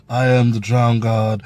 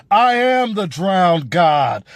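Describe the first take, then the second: First: Low, casual, like a normal conversation; mocking a weak delivery. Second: Slow, imposing declaration; powerful pirate king. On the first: Reviewer mimicking Euron's flat actor, low and offhand. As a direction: throw it away like small talk. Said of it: "He was just like a normal guy". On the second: Retold or imitated. Reviewer showing how Euron should have sounded, slow and imposing. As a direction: proclaim it like a god of the sea. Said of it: "he shoulda came out there powerful".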